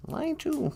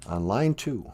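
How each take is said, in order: First: Said in the usual way. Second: Much lower put-on voice; deep sidekick voice; deep voice announcing. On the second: Deep voice then host repeats.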